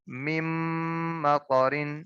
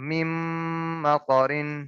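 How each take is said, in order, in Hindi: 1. n ध्वनि अगले m में मिल जाती है। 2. n ध्वनि अगले m में मिल जाती है।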